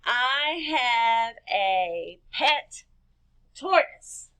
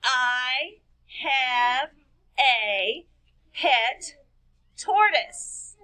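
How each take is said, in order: First: Very slow, each word drawn out; slow dictation for children; stretched dictation. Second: Each word said separately with a pause; one word at a time, counting. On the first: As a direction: say it slowly as if writing every word down. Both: Shown as a demonstration. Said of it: "Let's count and see how many words".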